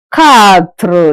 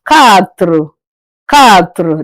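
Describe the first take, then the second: First: Quatre said katr, lips shown; French quatre. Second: Lower, quatre said katr with clear lips; careful French quatre. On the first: Teacher showing lips on quatre. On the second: Teacher asking class to watch lips. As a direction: shape quatre slowly, katr. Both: Shown as a demonstration. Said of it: "Listen to my pronunciation and look at my mouth".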